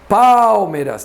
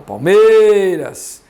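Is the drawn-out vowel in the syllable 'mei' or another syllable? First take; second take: another syllable; mei. First: A vowel outside 'mei' is drawn out. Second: The vowel of the syllable 'mei' is drawn out. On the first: The speaker calls it wrong. "não" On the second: The speaker calls it right. "olha ela no E"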